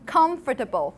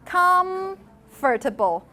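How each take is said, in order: First: The m is made with lower lip touching teeth. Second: The m is made with both lips fully closed. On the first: "or you do comfortable?" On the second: "Do you actually say com, comfortable"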